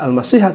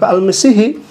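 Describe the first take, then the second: First: The word ends with an a vowel. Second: The word ends with an i vowel. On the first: The Messiah is among those taken as lords. "tidak dibaca al-masiha" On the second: The Messiah is joined to 'besides God'. "tetapi al-masihi"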